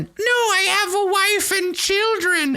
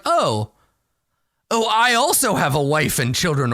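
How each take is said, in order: First: High, slow squeak of a begging kobold; squeaky kobold. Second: Said in the usual way. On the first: Acted. Kobold pleading for its life to the adventurer, high squeak. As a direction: squeak it out like a tiny cornered creature. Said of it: "the kobold suddenly squeaks out in common". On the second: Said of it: "And you're like".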